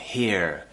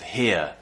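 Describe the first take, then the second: First: The R sound is clearly pronounced. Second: The R sound is silent. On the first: The speaker calls it wrong. "they pronounce the R quite a lot" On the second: The speaker calls it right. "instead of"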